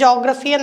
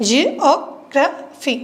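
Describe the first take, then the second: First: Said in the usual way. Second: ജിയോഗ്രഫി broken slowly into four separate beats; slow syllable-count demo of ജിയോഗ്രഫി, each beat detached. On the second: Shown as a demonstration. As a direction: say ജിയോഗ്രഫി as ji, o, gra, phy with gaps. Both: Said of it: "separate beat അല്ലെങ്കിൽ sound unit".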